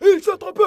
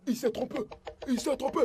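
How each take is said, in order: First: Louder higher correction. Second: Soft embarrassed mutter; quiet muttering. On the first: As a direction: say it out loud now. Puis le dit fort. (correction à voix haute) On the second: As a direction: hush it under your breath. Murmure gêné. (murmuré à voix basse) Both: Acted.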